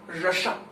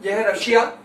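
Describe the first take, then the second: First: रशा said as Rasha, short a, no ya ending; Rasha mispronunciation. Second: Said in the usual way. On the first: Shown as a demonstration. Teacher mocking how students mispronounce Russia as रशा. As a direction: drop the ya so रशा comes out Rasha. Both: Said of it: "बहुत लोग रशा pronounce करते हैं".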